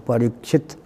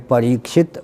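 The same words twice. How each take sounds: First: The vowel after the r is short. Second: The vowel after the r is long. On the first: It names the one through whom the dynasty was protected. "र के साथ ह्रस्व" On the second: It names the listener of the Bhagavata week. "इधर दीर्घ"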